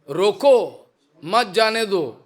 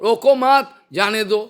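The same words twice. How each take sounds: First: The pause comes after the first word. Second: The pause comes after the second word. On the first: Stop him and do not let him go. "stop him, don't allow him to go" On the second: Do not stop him; let him go. "due to stammering ... gapping, difference. The meaning just opposite. Roko mat, don't stop him"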